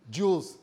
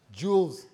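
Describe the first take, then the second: No difference in how they are said.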